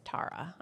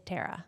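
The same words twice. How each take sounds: First: The name is said with an Irish pronunciation. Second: The name is said with an American pronunciation. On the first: This is how it is said in Dublin. The speaker calls it right. "But over there, no, it's Tara" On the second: This is how it is said at home in America. The speaker calls it wrong. "But here it's Tara"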